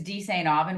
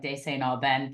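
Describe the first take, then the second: First: Said in the usual way. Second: "De Saint Aubin" said the fancy, un-Americanized French way; fancy original pronunciation. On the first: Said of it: "we've Americanized it a lot". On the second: Shown as a demonstration. Host guessing his surname's origin, fancy French-style pronunciation. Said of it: "It was probably some fancy".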